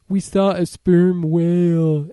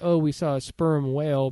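First: It imitates the deaf woman's speech. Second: It is said in a plain, ordinary voice.

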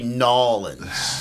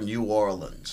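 First: The name is squashed together into one word. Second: The name is fully pronounced as separate words. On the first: The speaker calls it wrong. "don't say Nolans. Don't make it. The whole one word" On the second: The speaker calls it right. "Say it New Orleans"

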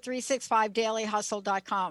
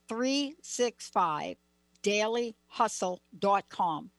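First: It is said at a normal speed. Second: It is said slowly and deliberately.

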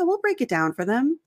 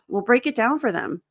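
First: The tone is positive and reassuring. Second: The tone is annoyed and frustrated. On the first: Don't worry, everything will be made clear. "my intonation was very positive, very reassuring" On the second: The client never understands, which is tiresome. "If your visualization is frustration"

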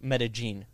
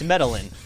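First: The double L is said like a hard J. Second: The double L is said as an English L. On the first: "they pronounce double L's like a hard J"

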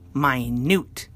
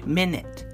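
First: It has a long U sound in the second syllable. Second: It has a short I and a reduced second vowel. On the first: Very tiny. "the word is now minute. Long U" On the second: A unit of time, sixty seconds. "Minute, the noun. Short I"

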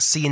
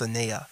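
First: The name begins with an 'ee' vowel. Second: The name begins with an 'ah' vowel. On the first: The speaker calls it wrong. "do not mispronounce it. It's not Cee-N" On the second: The speaker calls it right. "Miss Sanea"

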